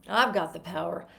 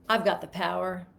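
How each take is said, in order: First: It sounds depressing, with the pitch dropping down. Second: It sounds depressing, with the pitch dropping down.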